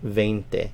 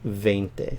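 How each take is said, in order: The two takes are said the same way.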